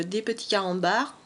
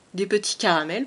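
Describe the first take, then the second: First: « carambars » dit à la place de « caramels », lapsus; mot erroné. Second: « caramels » dit correctement après le lapsus; mot corrigé. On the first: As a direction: say « carambars » by mistake, then catch it. (« carambars » prononcé par erreur) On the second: (« caramels », la bonne version) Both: Real, not acted.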